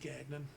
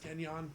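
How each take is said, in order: First: The name has an Americanized English pronunciation. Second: The name has a French pronunciation. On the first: The speaker calls it wrong. "the bastardized American way to say it is gagnon" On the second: The speaker calls it right. "it's gagnon. Fancy French"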